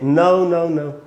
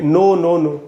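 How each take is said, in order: First: The vowel in no glides from uh to oo. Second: The vowel in no is a pure, unchanging o. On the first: "British English" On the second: "Indian हम लोग बोलेंगे"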